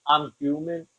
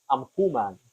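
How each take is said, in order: First: Said in the usual way. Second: I'm human said like a dog would say it; gruff little dog saying I'm human; mock dog voice. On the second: Shown as a demonstration. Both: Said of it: "the way my dog would say it".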